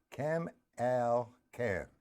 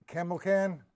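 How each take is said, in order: First: "Camelcan" very slowly, syllable by syllable, softer; sounding out a name. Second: Said in the usual way. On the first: Real, not acted. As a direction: carefully break "Camelcan" into three drawn-out syllables. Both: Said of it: "I can't pronounce your name".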